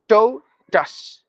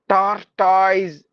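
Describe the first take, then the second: First: The word ends with a 'tus' sound. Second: The word ends with a 'toise' sound. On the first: The speaker calls it right. "That is how we have to pronounce" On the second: The speaker calls it wrong.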